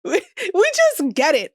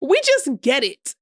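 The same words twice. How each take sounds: First: Laughing repeat. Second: Said in the usual way. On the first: Shown as a demonstration.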